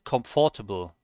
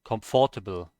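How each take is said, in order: Both takes have the same delivery.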